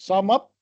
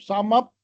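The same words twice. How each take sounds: No difference in how they are said.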